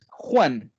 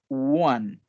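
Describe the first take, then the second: First: It sounds like the Spanish name Juan. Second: It begins with a rounded 'oo' sound. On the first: The speaker calls it wrong. "Ojo que no es Juan" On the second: The speaker calls it right. "es one"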